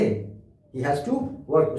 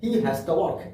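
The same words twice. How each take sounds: First: Each word of 'has to' is said fully. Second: 'Has to' is run together as one word.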